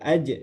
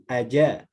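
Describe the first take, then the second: First: The final consonant is held without a vowel. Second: A full vowel is added after the consonant. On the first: The speaker calls it right. "yang sukun jangan dirubah jadi harokat" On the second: The speaker calls it wrong. "jadi aja"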